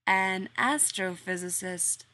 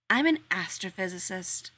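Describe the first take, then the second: First: Slow echo, AN stretched in "An astrophysicist"; slow puzzled repeat. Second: Haughty sniff. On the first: Workman repeating Rodney's job back to him, slow and puzzled. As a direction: echo it back slowly, unsure. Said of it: "Cornwallis repeated". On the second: Rodney announcing his job to the workmen, haughty. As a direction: lean on AN in "I'm an astrophysicist", proud and superior. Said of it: "Rodney sniffed". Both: Acted.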